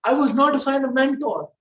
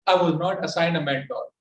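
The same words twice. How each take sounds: First: Higher, lively, varied melody; expressive. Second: Flat, even tone, no melody; monotone. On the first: Shown as a demonstration. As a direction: say it with feeling and emphasis. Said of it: "just say". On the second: Retold or imitated. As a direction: recite it flatly, without feeling. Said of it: "were actually monotone".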